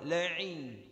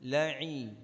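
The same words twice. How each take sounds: The two takes are said the same way.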